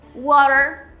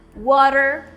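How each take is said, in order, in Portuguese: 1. Ela é pronunciada com sotaque americano. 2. Ela é pronunciada com sotaque americano.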